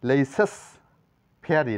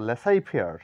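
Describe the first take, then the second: First: The first word ends with a sounded consonant. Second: The first word ends in a vowel sound. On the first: The speaker calls it wrong. "না বলে" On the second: The speaker calls it right. "জেড লেটারটি কোনো উচ্চারণ নেই"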